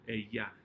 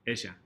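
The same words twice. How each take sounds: First: The double L sounds like an English y. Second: The double L sounds like a buzzing z. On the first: "the double L is going to have the y sound" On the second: "a little sneaky Z sound"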